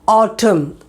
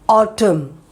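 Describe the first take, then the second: The two takes are said the same way.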